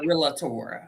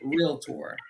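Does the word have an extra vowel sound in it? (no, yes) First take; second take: yes; no. First: An extra vowel sound is added inside the word. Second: No extra vowel sound is added inside the word. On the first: The speaker calls it wrong. "There's not an extra A in realtor. I'm not a" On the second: The speaker calls it right. "I'm a realtor"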